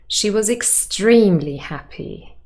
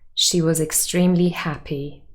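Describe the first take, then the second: First: The strongest stress falls on extremely. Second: The strongest stress falls on happy. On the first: How extraordinarily happy she was is emphasized. "Now, emphatic stress" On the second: She was happy, stated neutrally. "First, the standard stress"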